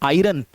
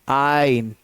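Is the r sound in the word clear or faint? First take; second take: clear; faint. First: The r sound is clearly pronounced. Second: The r sound is barely pronounced. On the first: The speaker calls it wrong. "हम लोग कई बार गलत pronounce करते हैं" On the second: The speaker calls it right. "बहुत हल्की सी आर की आवाज निकलेगी"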